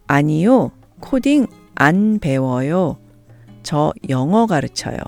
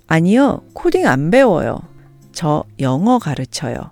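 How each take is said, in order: First: It is said slowly and carefully. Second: It is said at natural speed.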